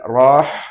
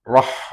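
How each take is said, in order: First: The vowel is dragged out longer. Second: The vowel is short, moving straight on. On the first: The speaker calls it wrong. "bukan rah" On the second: The speaker calls it right. "tapi rah langsung"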